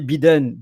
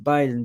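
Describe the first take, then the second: First: The name is read with French pronunciation. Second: The name is said with English pronunciation. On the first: The speaker calls it wrong. "we don't say biden" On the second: The speaker calls it right. "We say Biden because it's about the name"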